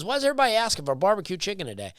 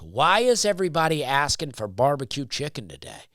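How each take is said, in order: First: Rushed, higher mock of the server. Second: Quoting the server at a normal pace. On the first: To the listener, mocking the barbecue server, high and fast. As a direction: rattle it off high and fast like a clueless waiter. Server quote mocked, sped up. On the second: Retold or imitated. To the listener, retelling the server's question, plainly. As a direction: repeat the server's question as he asked it. Server quoted, then repeated.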